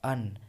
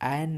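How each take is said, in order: First: The vowel is a short reduced 'uh' sound. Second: The vowel is a full 'eh' sound. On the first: The speaker calls it right. "इसे अन पढ़ते हैं" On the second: The speaker calls it wrong. "एन नहीं पढ़ते हैं"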